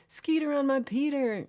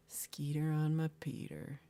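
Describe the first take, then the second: First: Laughing. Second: Said in the usual way. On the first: Real, not acted. Laughing song title to chat.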